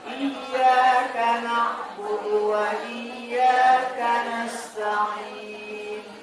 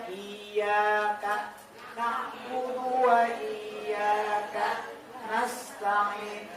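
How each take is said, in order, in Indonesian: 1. Frasa itu diucapkan menyambung tanpa jeda. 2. Frasa itu dipisah oleh jeda. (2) "Enggak boleh"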